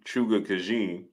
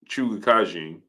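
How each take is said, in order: First: The first name begins with an s sound. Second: The first name begins with a ch sound. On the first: The speaker calls it wrong. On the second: The speaker calls it right.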